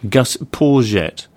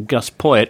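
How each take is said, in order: First: The surname ending rhymes with courgette. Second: The surname ending does not rhyme with courgette. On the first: The speaker calls it right. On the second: The speaker calls it wrong.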